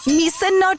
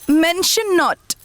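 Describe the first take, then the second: First: The first word is said like 'mish-un'. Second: The first word is said like 'men-shun'. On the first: The speaker calls it wrong. "ना दीदी" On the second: The speaker calls it right.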